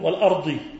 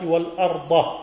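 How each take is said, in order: First: The word ends with a vowel other than 'a'. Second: The word ends with the vowel 'a'. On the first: The speaker calls it wrong. "هم يقولون والأرض" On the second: The speaker calls it right. "والأرض منصوبة ومعطوفة على منصوب"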